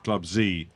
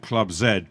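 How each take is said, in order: First: The final letter is said as zee. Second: The final letter is said as zed. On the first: This is how the organisation says its own name. "but they call themselves" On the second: This is how a British speaker says it. "what I would call"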